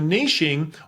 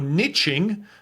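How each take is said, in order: First: The word is said the non-American way. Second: The word is said the American way.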